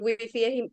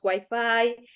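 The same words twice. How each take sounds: First: The word is pronounced with Spanish sounds. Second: The word is pronounced with English sounds. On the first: This is how it is said in Spain. "en vez de decir wifi" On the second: This is how it is said in Colombia. "hacer la pronunciación de palabras extranjeras del inglés como eh, la pronunciación de inglés"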